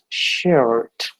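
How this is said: It is said with an American accent. "the Americans would pronounce it as shirt"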